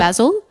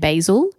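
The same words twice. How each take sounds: First: The word is said the non-American way. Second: The word is said the American way. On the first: "Instead of basil" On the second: "before I was saying basil ... is it an American thing?"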